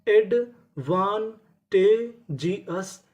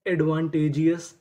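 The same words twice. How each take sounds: First: advantageous stretched very slowly, each syllable held; slow drawn-out reveal. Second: Said in the usual way. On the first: Shown as a demonstration. Teacher showing students the full word, very slow. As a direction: spell out advantageous slowly in sound. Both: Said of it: "तो पूरी meaning".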